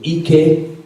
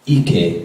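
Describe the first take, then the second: First: The word carries the tone pattern meaning strength. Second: The word carries the tone pattern meaning buttocks. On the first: The word means strength or power. "Ike means strength" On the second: The word means buttocks. "Ike means your buttocks"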